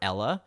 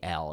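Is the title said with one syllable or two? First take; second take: two; one. First: The title is said with two syllables. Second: The title is said with one syllable. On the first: The speaker calls it wrong. "It's probably not Ella" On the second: The speaker calls it right. "Probably L"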